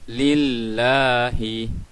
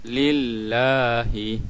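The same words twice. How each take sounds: Both takes have the same delivery.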